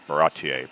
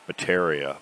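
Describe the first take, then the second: First: The name ends with an 'ay' sound. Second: The name ends with an 'ia' sound. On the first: The speaker calls it right. "I had it in my head" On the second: The speaker calls it wrong. "nothing like what it's supposed to be"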